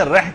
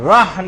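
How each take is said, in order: First: رح as a narrow "reh" with light h; wrong "reh" sound. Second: رح as an open "rahh" with throaty ح; correct "rah" sound. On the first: Teacher isolates the syllable to avoid, mispronounced. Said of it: "رح کی آواز نہیں نکالنی". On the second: Teacher isolates the syllable to produce, emphatic pronunciation. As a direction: stress رح, opening the vowel to "a". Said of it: "رح کی آواز نکالنی ہے". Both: Shown as a demonstration.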